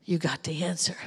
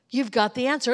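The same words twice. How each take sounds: First: Whispered. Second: Full voice, leaning on "answer"; stress on answer. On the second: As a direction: land the word "answer" firmly at normal volume. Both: Acted. Repeats line softly then builds.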